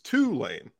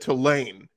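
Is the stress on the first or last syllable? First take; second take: first; last. First: The stress is on the first syllable. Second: The stress is on the last syllable.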